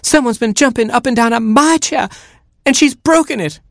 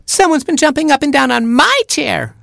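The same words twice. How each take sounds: First: Very high, outraged mother hen; flustered hen, pitched way up; flabbergasted clucking. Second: Put-on very high, squealing baby chick; piercing little squeal of protest; screaming chick. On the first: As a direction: cluck it in shrieky disbelief. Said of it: "she clucked, flabbergasted". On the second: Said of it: "screamed Baby Chick". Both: A narrator's reading.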